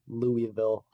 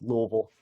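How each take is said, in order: First: Every syllable of the name is clearly pronounced. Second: Parts of the name are slurred and dropped. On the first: This is how outsiders say the name. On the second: This is how locals say the name.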